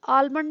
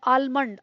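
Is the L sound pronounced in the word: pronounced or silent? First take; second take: pronounced; pronounced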